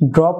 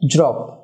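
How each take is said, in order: First: It begins with a plain d sound. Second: It begins with a j-like sound. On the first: The speaker calls it wrong. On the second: The speaker calls it right.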